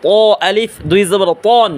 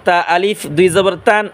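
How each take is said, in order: First: তন with a heavy, thick t. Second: তান with a light, thin t. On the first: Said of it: "আর ত মোটা করে পড়ব". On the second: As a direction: keep the t of তা light, tongue flat. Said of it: "তা চিকন আওয়াজে পড়ব". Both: Shown as a demonstration.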